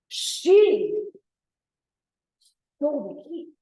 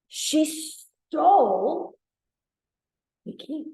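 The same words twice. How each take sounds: First: The stress is on she. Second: The stress is on stole.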